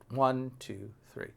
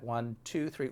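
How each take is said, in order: First: The stress is on one. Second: The stress is on two.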